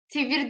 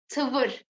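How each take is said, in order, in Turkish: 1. Ünlüler, İngilizcedeki 'ee' gibi ön ünlülerdir. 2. Ünlüler, Türkçedeki 'ı' gibi merkezî ünlülerdir. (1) "Tivir değil arkadaşlar" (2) "Bu Kürtçenin ısı oluyor"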